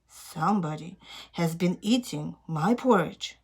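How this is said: It is said in a loud, growly voice.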